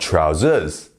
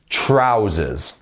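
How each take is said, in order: First: The stress is on the second syllable. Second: The stress is on the first syllable. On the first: The speaker calls it wrong. "Not trousers" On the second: The speaker calls it right. "the stress is once again on the first syllable"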